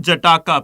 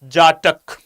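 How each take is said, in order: First: The word ends with an extra vowel sound. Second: The word ends on a consonant sound. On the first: The speaker calls it wrong. "it's not Jataka. Please make it clear. Do not pronounce it as Jataka" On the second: The speaker calls it right. "No, it is Jatak"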